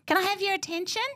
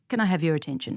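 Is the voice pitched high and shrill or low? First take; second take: high; low. First: The voice is pitched high and shrill. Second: The voice is pitched low and controlled. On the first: The speaker calls it wrong. "that's shrill" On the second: The speaker calls it right. "Now I'm practicing now to lower my pitch"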